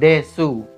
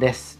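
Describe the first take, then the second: First: The final u is fully and clearly pronounced. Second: The final u is thin and barely heard. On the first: "Itu tulisannya hasnul desu" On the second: "Dibacanya hasnul des"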